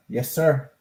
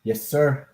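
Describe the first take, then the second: No difference in how they are said.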